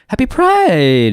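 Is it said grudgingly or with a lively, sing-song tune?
sing-song. It is said with a lively, gliding tune.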